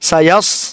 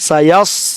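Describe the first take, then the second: Both takes have the same delivery.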